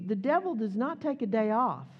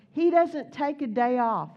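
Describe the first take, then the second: First: Said in the usual way. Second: He doesn't take a day off, louder with a falling hit on He; stress on He. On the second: Shown as a demonstration. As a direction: punch He and land the line firmly.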